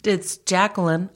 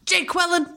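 First: Said in the usual way. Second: High, insistent "Jay Quillen", said jay-KWIL-in; mispronounced name. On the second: Retold or imitated. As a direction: misread "Jay Quillen" as two words, much higher. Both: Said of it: "where they say the names wrong".

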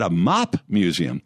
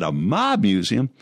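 First: "mop" ending on a crisp p, slow and deliberate. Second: "mob" ending on a clear voiced b, slow and questioning. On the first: Retold or imitated. Lawyer insisting he meant cleaning tools, "mop" with a p. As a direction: say "mop" with a sharp p, like cleaning a floor. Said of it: "I said". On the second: Lawyer echoing the group's accusation, "mob" with a b. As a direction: say "mob" with a firm b sound, like the word gangster. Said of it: "I never said that".

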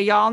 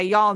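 First: "y'all" as a quick Southern yawl. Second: "y'all" said as Southern yawl, one syllable. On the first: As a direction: repeat "y'all" like a Texan. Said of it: "Do you say". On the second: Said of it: "you say". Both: Shown as a demonstration.

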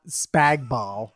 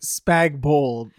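First: "Spagball" with second half said like "ball"; slow, amused "Spagball", rhyming with "hall"; wrong pronunciation. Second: "Spagball" with second half said like "bowl"; correct pronunciation. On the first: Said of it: "not Spagball". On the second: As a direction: say "Spagball" as "spag-bowl", falling firmly. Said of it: "Yeah, they say". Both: Shown as a demonstration.

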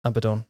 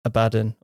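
First: "Abaddon" as ab-uh-DON; full final syllable. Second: "Abaddon" as uh-BAD-un; stress on middle syllable. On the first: Host offering the other pronunciation to co-host, "Abaddon" as ab-uh-DON. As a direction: say "Abaddon" with a weak middle and a clear DON. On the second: Host offering one pronunciation to co-host, "Abaddon" as uh-BAD-un. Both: Shown as a demonstration. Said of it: "however you wanna pronounce it".

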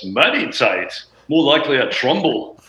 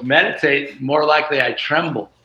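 First: Light British accent imitation of the guitarist; a dry British quip, lightly put on. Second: Said in the usual way. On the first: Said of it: "he's got this great British accent". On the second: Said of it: "What a great line, [name]".

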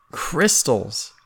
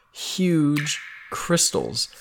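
First: Said in the usual way. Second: Huge drawn out very slowly; stress on Huge. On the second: Shown as a demonstration. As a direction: stretch out Huge crystals slowly.

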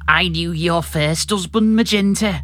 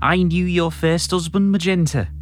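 First: Sheikh Vizier. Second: Slow, mildly threatening Scouse villain; a half-hearted menace, drawn out; Sheikh Vizier. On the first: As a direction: threaten with a little more phlegm. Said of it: "increase the amount of phlegm or something". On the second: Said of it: "can you be a bit more, uh, threatening". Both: Acted.

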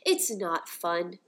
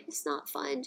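First: Drawn out slowly, each word landed: It's not fun; slow emphatic denial. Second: It's not fun, softer and higher, after a laugh; softer emotional repeat. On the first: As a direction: spell it out slowly, as a firm verdict. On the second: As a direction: let it slip out softly, half laughing. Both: Real, not acted. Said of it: "I'm getting emotional".

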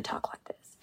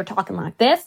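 First: Hushed, whispered delivery; slow Ruth tone. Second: Quick, voiced, full-volume delivery; really fast. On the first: Actress showing Ruth's second tone, slow and hushed. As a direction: drop into a whisper. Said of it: "really slow". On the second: Actress showing Ruth's first tone, really fast. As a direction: say it briskly. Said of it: "always either talking like this". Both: Shown as a demonstration.

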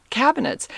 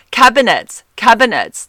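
First: "Cabinets" with a weak last vowel, "-nuts"; own pronunciation of cabinets. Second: "Cabinets" high and loud, ending in a hard "-nets"; mock it by punching "Cabinets" as "cab-nets"; mocking imitation. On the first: Shown as a demonstration. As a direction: say "Cabinets" high, ending in a relaxed "-nits". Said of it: "Am I saying this wrong?". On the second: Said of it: "mock me".

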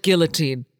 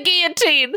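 First: Put-on "guillotine" as gill-uh-teen, L sounded; English-style pronunciation. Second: Put-on "guillotine" as ghee-uh-teen, L silent; French-style pronunciation. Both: Shown as a demonstration. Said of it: "Or is it guillotine?".

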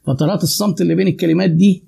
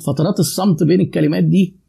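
First: Deliberate pauses before دي; paused phrase. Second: Silences between words; paused phrase. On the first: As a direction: let silence hang between the words. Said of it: "شايفين بقى الانترست والاهتمام". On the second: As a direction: leave pauses between فترات الصمت بين الكلمات دي. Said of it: "شايفين شوية اللي أنا وقفتهم دول". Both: Shown as a demonstration.

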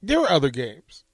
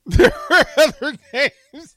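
First: Said in the usual way. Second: Higher, louder, slow line broken by laughter; helpless real laughter on the words; cracking up. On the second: Real, not acted. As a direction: laugh hard through every word.

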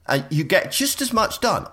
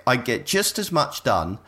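First: "just" raised high and hit hard; stress on just. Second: Said in the usual way. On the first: Shown as a demonstration. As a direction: push "just" up with emphatic pitch. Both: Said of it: "I swear it".

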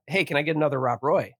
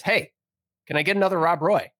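First: Said in the usual way. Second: Higher, insistent customer asking; retold pushy call for service; insistent repeat. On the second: Ignored customer calls to the bartender, insistent.

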